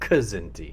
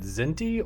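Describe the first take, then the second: First: The word starts with a k sound before z. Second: The word starts directly with a z sound.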